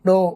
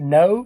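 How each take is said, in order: First: The vowel is a plain flat o. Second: The vowel is rounded and glides. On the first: The speaker calls it wrong. "ओ नहीं बोलना" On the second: The speaker calls it right. "वो round होते हैं"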